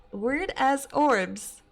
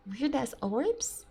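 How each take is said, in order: First: "Weird ass orbs" dragged out slowly and louder, falling on "ass"; slow disbelief. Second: Puzzled question. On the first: Real, not acted. Streamer repeating the caller's words, slowly in disbelief. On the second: Shown as a demonstration.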